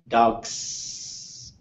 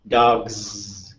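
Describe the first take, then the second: First: The final sound is an unvoiced s. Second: The final sound is a voiced z. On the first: The speaker calls it wrong. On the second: The speaker calls it right.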